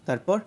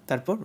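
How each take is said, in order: Both takes have the same delivery.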